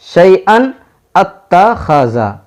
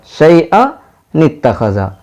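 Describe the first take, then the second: First: शैअन said alone with a rising end, then a pause, then a slow, separate अत्तखज़ा; breath broken after शैअन. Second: शैअ runs straight into नित्तखज़ा with the नून sounded and no pause; joined in one breath. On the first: Teacher showing students a break in the breath, split in two. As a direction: stop after शैअन, restart slowly on अत्तखज़ा without the नून. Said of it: "अब अगर हम यहाँ सांस तोड़ देंगे". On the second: Teacher showing students the joined reading, one smooth breath. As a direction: link शैअ नित्तखज़ा as one flowing word. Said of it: "एक बार की पूरा ... पढ़ना होगा".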